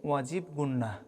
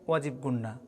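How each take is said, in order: No difference in how they are said.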